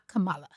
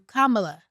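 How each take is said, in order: First: The stress is on the second syllable. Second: The stress is on the first syllable. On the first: The speaker calls it wrong. "not Kamala" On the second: The speaker calls it right. "she's going to remind you Kamala"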